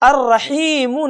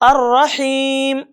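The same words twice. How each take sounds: First: The word ends with a final vowel sound. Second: The word ends on a consonant, vowel dropped. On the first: The speaker calls it wrong. "अर्रहीम नहीं" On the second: The speaker calls it right. "बल्कि अर्रहीम"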